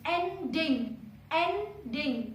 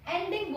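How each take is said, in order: First: एंडिंग split into two clear beats, एं-डिंग; एंडिंग drawn out as एं, then डिंग; syllable-by-syllable demo. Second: Said in the usual way. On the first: Shown as a demonstration. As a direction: count out both syllables of एंडिंग. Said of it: "दो बार नीचे आई है". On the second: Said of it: "एंडिंग बोलते हैं".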